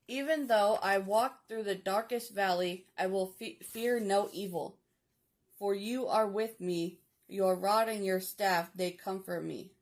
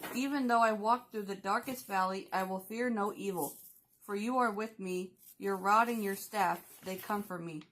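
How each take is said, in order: First: The verse is read slowly. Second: The verse is read at normal speed.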